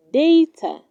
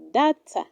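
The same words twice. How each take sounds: First: Data said day-ta, a little louder; data as day-tuh with the stress on day; correct pronunciation. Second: Data said dah-ta with a short a; data as dah-tuh; wrong pronunciation. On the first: Teacher giving learners the right way: data as day-tuh. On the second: Teacher showing learners the wrong way: data as dah-tuh. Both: Shown as a demonstration. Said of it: "It is pronounced".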